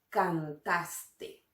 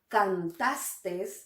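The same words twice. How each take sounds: First: The word ends without an extra s sound. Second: The word ends with an extra s sound. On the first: The speaker calls it right. "sin la S final" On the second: The speaker calls it wrong. "con una S al final"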